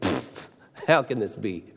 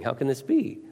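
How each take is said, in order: First: It sounds scornful and doubting. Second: It sounds amazed and full of awe.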